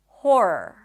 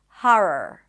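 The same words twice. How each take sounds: First: The first vowel sounds like 'or' in 'for'. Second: The first vowel is an open 'ah' sound. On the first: "the more common one, and that is an H sound, then the or as in for" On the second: "Some people will pronounce it with an open ah sound"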